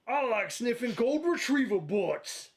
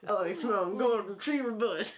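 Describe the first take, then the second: First: Slow, higher cartoon hound drawl; Huck voice. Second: A light slow try at the cartoon hound; slow lazy hound attempt, eyes closed; Huck voice. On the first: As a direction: play Huckleberry Hound, eyes shut. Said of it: "say it like Huck would say it". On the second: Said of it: "his best Huckleberry Hound impression".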